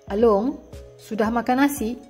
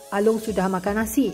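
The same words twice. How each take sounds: First: It is said as a question. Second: It is said as a plain statement. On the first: The speaker is asking whether the meal was eaten. "berbentuk pertanyaan" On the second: The speaker is informing that the meal was eaten. "saya memberitahu bahawa Along sudah makan nasi"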